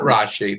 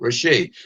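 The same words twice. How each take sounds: First: The stress is on the first syllable. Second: The stress is on the last syllable. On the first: The speaker calls it wrong. "not Rashi" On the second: The speaker calls it right. "but Rashi, because it's a Dagash Chazak in the Shin"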